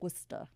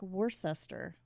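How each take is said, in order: First: The name is pronounced differently from its spelling. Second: The name is pronounced just as it is spelled. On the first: The speaker calls it right. "but it's Worcester" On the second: The speaker calls it wrong. "Now it looks like Worcester"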